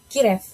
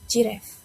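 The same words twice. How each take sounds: First: The first sound is not a soft G. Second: The first sound is a soft G. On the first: The speaker calls it wrong. "Many Indonesian learners still pronounce it as giraffe" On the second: The speaker calls it right. "J sound or soft G"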